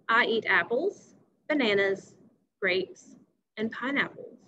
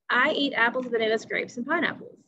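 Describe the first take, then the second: First: There is a short pause after each list item. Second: The list items run together without any pauses. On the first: "if I put those commas back in, now it sounds like this" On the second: "My words all ran together"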